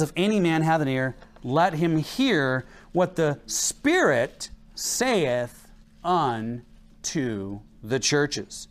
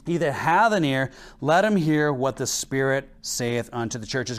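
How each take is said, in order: First: "let him hear what the Spirit saith" stretched out very slowly; weighty, deliberate scripture reading, slowed right down; slow, drawn-out emphasis. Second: Said in the usual way. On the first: Shown as a demonstration. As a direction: linger on "saith" and "unto the churches", pressing each word. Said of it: "but he says".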